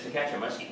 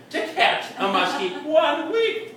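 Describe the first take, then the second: First: Said in the usual way. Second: "catch" punched high, then "one week" drawn out in disbelief; incredulous stress on "catch". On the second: Acted. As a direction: hit "catch" hard and stretch "one week" slowly upward. Repeats phrase with incredulous emphasis.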